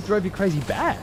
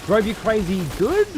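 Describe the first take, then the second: First: "bad" lifted as a rising question; stress on bad. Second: "good" lifted as a rising question; stress on good. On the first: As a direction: lean on the word "bad" with a questioning rise. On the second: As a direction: lean on the word "good" with a questioning rise. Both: Shown as a demonstration.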